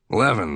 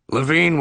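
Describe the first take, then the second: First: The name ends with a short 'in' sound. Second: The name ends with a long 'een' sound. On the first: The speaker calls it right. "I said the name rhymed with heaven. ... getting it right" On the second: The speaker calls it wrong. "He had pronounced the name here and on the phone earlier as Levine"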